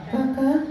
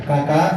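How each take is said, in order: First: High, soft puppet voice repeating Kakak; monkey puppet voice. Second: Said in the usual way. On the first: Acted. Coba bilang. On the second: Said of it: "Coba bilang".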